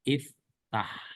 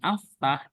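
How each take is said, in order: First: The word begins with an i vowel. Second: The word begins with an a vowel. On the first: The speaker calls it right. "hamzahnya atau alifnya itu kasroh" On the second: The speaker calls it wrong. "bukan aftah"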